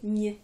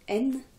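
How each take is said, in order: First: The n is soft, palatalized like gn. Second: The n is hard, not palatalized. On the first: "suivi d'un signe mou, vous prononcerez Gne" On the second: "si vous écrivez le signe dur, vous prononcerez N"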